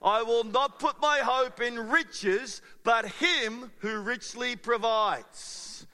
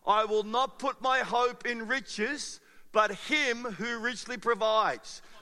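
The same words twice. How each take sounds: First: It is said with more belief and enthusiasm. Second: It is said plainly, with little enthusiasm.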